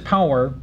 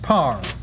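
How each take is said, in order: First: The word is said with two syllables. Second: The word is said with one syllable. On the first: The speaker calls it wrong. "she introduces an extra syllable by using the disyllabic pronunciation of power" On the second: The speaker calls it right. "it should have been pronounced par"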